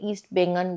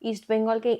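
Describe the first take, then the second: First: The last word ends with an 'n' sound. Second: The last word ends with an 'l' sound. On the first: The speaker calls it wrong. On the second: The speaker calls it right.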